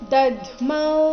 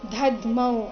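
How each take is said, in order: First: The first consonant is a plain unaspirated d sound. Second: The first consonant is an aspirated dh sound. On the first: The speaker calls it right. "ಸರಿಯಾಗಿದ್ದ ಉಚ್ಚಾರಣೆ ದಧ್ಮೌ ಈ ರೀತಿ" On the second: The speaker calls it wrong. "ಗಡಿಬಿಡಿಯಲ್ಲಿ ಬಾಯಿಯಿಂದ ಧಧ್ಮೌ ಅಂತ ಬರ್ಬಹುದು, but ಅದು ತಪ್ಪಾಗಿದೆ"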